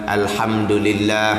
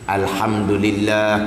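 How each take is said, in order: The two takes are said the same way.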